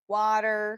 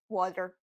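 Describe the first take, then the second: First: The middle consonant is a quick tongue flap. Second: The middle consonant is a hard D sound. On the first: The speaker calls it right. "when we have a flap T in American English is when T is located between two vowels" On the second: The speaker calls it wrong. "It's not water, water, water, water. It, it is not"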